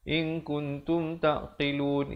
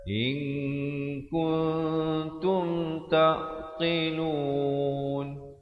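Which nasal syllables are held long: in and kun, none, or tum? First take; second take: none; in and kun. First: No nasal syllable is held long. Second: The nasals in in and kun are held long. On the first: The speaker calls it wrong. "Jangan kita baca in kuntum taqilun, in kuntum taqilun, itu salah" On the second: The speaker calls it right. "Yang betulnya in kun, ing dua harakat, kun juga dua harakat"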